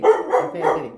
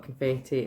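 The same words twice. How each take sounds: First: High, bright sing-song Confetti; playful exclaim. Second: Said in the usual way. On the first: Real, not acted. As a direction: relish the word Confetti with a playful high lilt. Repeats word playfully, sing-song.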